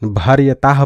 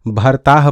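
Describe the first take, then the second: First: It is said as bhar-ya-taah, with the y after r. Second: It is said as bhar-taah, with no y sound. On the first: "भर्यताह पढ़ देते हैं" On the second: "कई लोग इसको भरताह पढ़ देते हैं"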